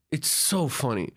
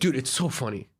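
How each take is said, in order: First: "so" drawn out slowly for emphasis; stress on so. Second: Said in the usual way. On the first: Real, not acted. Guest sums up scams in Egypt, "so" stretched out. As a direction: stretch the word "so".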